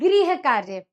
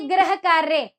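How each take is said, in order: First: The first word is said like 'grih'. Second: The first word is said like 'grah'. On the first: It means housework. The speaker calls it right. "सही उच्चारण होगा?" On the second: It means planet work. The speaker calls it wrong. "आप गलत बोल रहे हैं"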